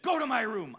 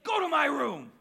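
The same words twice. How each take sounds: First: Loud, sharp command from a tough mother; mom's stern order. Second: Much louder and higher, she's had enough; mom's angry shout. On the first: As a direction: order him to his room, firm and loud. Tough mom orders son. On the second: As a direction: yell the order again, furious. Mom repeats order, angrier. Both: Retold or imitated.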